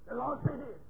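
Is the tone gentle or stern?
stern. The voice is stern, strong and forceful. The message is pressed on the listeners with authority. "the tone of your voice is stern and strong, dominating"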